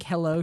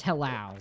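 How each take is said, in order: First: Said in the usual way. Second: "hello" ending in an OW sound. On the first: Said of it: "That's hello". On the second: Shown as a demonstration. Streamer showing chat how "hello" with a W sounds, OW ending. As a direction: say "hello" as hel-LOW, rhyming with cow. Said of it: "hello should be spelled with a W".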